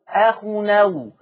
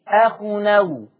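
No difference in how they are said.

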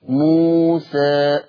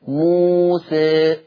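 First: The final vowel is midway between a and e. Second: The final vowel is close to an e sound. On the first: "ثم التقليل الإمالة قليلا" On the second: "أما الإمالة الكبرى ينحرف الفك أو يستفل الفك لأسفل"

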